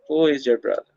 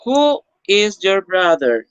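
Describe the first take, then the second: First: Said in the usual way. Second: Slower, higher and louder, each word clear; slow model question. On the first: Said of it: "repeat after slow model". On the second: Shown as a demonstration. Teacher modelling a question for the class, slow and clear. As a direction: read it out slowly for the class to copy. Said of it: "teacher models, then repeats plainly".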